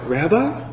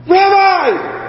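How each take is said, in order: First: Softer, rising and unsure; hesitant, questioning recognition; tentative question. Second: High, overjoyed cry; an acted burst of delighted shock; excited outcry. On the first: Acted. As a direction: ask it softly, lifting at the end. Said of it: "I don't know if it was". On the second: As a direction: cry out in sudden recognition, pitched way up. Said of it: "how did she respond".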